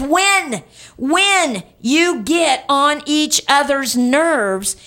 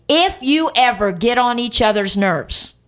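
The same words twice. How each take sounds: First: "When" high, repeated and drawn out; stress on WHEN. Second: "If" leaned on as the wrong word; stress on IF. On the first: Pastor correcting "if" to what Paul says, emphatic "When". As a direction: punch "When" twice, slow and high. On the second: Pastor showing what Paul does not say, stress on "If". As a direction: hit "If" as the word Paul didn't use. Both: Shown as a demonstration. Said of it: "I wanna emphasize the word when".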